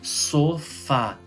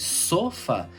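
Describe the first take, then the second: First: The stress is on the last syllable. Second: The stress is on the first syllable. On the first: "oxítona" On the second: "então seria paroxítona"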